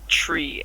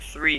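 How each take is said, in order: First: The word begins with a hard T sound. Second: The word begins with a soft TH sound. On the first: "they would say tree" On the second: "when we say a number like three"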